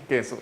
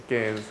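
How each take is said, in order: No difference in how they are said.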